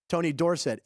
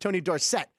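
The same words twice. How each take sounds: First: The stress is on the first syllable of Dorsett. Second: The stress is on the second syllable of Dorsett. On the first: This is how the name was said in college. "when he was in college, it was Tony Dorsett" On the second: This is how the name was said in the pros. "emphasis on the second syllable"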